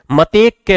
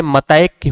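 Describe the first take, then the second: First: मतेक said "ma-tek", with pure e; wrong "e" vowel. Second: मतैक said slowly "ma-ta-ek", with a glide; correct "ai" vowel. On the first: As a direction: keep a plain "te" in मतेक. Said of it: "मतेक नहीं होता है". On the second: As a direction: stretch "tai" into a glide in मतैक. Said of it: "मतैक होता है". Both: Shown as a demonstration.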